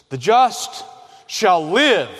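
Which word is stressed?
live. The stress falls on the word live.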